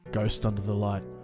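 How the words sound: It is read in a soft, sultry voice.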